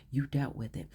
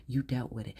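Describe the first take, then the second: No difference in how they are said.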